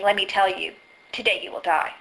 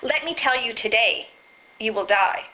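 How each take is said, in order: First: "Let me tell you," pause, then "today you will die" lower; pause after tell you. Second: "Let me tell you today," pause, then "you will die"; pause after today. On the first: Speaker contrasting a second pause placement, lower and grave. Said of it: "and me saying". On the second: Speaker demonstrating a pause placement, ominous. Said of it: "big difference between me saying that". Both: Shown as a demonstration.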